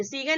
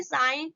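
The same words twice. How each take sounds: First: सीगन with a hard G, see-gan; wrong sounded G. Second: साइन with no G, like sine; silent G. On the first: Teacher showing what not to read, सीगन with hard G. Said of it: "सीगन नहीं इसको पढ़ेंगे". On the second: Teacher giving learners the reading, साइन with silent G. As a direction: leave the G out of साइन. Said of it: "हम क्या बोलेंगे". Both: Shown as a demonstration.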